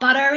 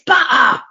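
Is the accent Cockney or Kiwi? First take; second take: Kiwi; Cockney. First: It is said with a Kiwi accent. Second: It is said with a Cockney accent.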